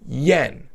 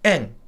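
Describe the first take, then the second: First: The word starts with a y sound. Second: The word starts directly with a vowel. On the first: This is how it is said outside Japan. "Japanese never say yen" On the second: This is how Japanese speakers say it. "They say en"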